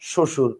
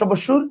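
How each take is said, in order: First: No 'b' sound follows the first consonant. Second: A 'b' sound follows the first consonant. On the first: The speaker calls it right. "আপনি বলেন শ্বশুর" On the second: The speaker calls it wrong. "শ্বশুর বলেন না"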